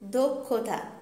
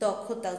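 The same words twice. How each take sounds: First: The first vowel sounds like 'o'. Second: The first vowel sounds like an open 'a'. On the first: The speaker calls it right. "আদ্য অ এর পরে ক্ষীয় থাকলে সেই অ এর উচ্চারণ ও এর মতো হয়" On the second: The speaker calls it wrong. "অনেকেই কি করে, দক্ষতাকে দক্ষতা উচ্চারণ করে"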